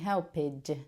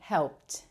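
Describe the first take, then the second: First: The ending is not a plain t sound. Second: The word ends with a clear t sound. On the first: The speaker calls it wrong. "I'm not saying helped" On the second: The speaker calls it right. "There's a t, t sound at the end"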